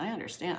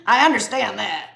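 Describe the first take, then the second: First: Said in the usual way. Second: Loud, exaggerated put-on voice; hammed-up insistence. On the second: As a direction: belt it out as a joke. Repeats line in exaggerated jokey voice.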